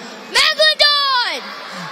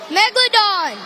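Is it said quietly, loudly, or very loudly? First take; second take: very loudly; loudly. First: It is said very loudly. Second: It is said loudly.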